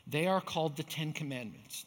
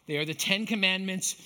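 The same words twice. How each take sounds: First: "are" leaned on, falling tune; stress on are. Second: "Commandments" hit louder; stress on Commandments. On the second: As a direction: punch "Commandments" firmly. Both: Shown as a demonstration. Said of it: "not the ten suggestions".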